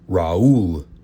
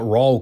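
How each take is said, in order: First: The name is said with exaggerated, careful enunciation. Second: The name is said in a plain, ordinary way. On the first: The speaker calls it right. "Got to accentuate the diction" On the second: The speaker calls it wrong. "Not Raul Castro"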